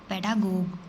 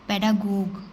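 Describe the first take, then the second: Both takes have the same delivery.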